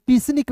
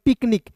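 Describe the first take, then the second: First: पिसनिक said with an s sound; teacher gives पिसनिक as the reading to avoid; wrong reading. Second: पिकनिक said with a k sound; teacher gives पिकनिक as the correct reading; right reading. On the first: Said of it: "पिसनिक नहीं पढ़ेंगे". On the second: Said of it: "इसे पढ़ेंगे पिकनिक". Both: Shown as a demonstration.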